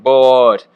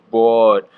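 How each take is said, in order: First: "boat" punched loud with a Wisconsin long o; loud Wisconsin "boat", like motorboat; Wisconsin accent. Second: Wisconsin vowel in "boat", rounded long o; Wisconsin accent. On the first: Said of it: "like a motorboat". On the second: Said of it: "with my Wisconsin accent". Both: Retold or imitated.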